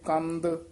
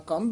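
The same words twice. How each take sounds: First: The word ends with a soft d sound. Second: The word ends without a soft d sound. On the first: The speaker calls it right. "ਦੱਦੇ ਨਾਲ ਹੀ ਉਚਾਰਨ ਕਰਨਾ" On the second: The speaker calls it wrong. "ਨਹੀਂ ਕਹਿ ਦੇਣਾ"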